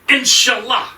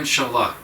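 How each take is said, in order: First: It sounds enthusiastic and eager. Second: It sounds dismissive and uninterested.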